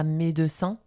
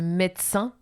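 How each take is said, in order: First: The e after the d is pronounced. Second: The e after the d is dropped. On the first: The speaker calls it wrong. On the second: The speaker calls it right. "on mange le E"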